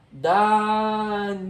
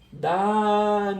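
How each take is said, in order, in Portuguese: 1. A tônica está na última sílaba. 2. A tônica está na última sílaba.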